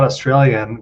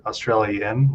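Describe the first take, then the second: First: Said in the usual way. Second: Australian said slowly as Austr-alien, leaning on alien; Austr-alien pun. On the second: Shown as a demonstration. Correcting a Netflix title: Australian as alien, slowed. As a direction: draw out Australian so alien pops out. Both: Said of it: "like alien".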